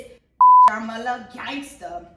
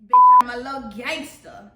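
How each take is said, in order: First: Slow, loud bitch, then I'm a little gangster; gangster plant name. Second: Loud, punchy bitch, I'm a little gangster; gangster plant name. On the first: Showing guests how to say the plant's name, loud gangster. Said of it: "say it like that". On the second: Naming her plant, says the name loud and gangster. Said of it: "but you must say it like that". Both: Shown as a demonstration.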